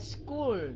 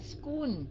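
First: The word ends with a curled-tongue l sound. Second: The word ends with an n-like sound. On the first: The speaker calls it right. "mà là school" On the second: The speaker calls it wrong. "Không phải là school"

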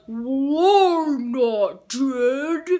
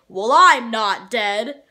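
First: A low voice slowed down by editing. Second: A low voice at natural, unprocessed speed. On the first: "in editing, I slow it down" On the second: "I say in a low voice"

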